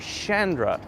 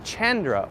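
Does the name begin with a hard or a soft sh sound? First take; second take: soft sh; hard. First: The name begins with a soft sh sound. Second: The name begins with a hard consonant sound. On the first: "sometimes the C H makes a soft sh sound" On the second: "Is it a hard C sound?"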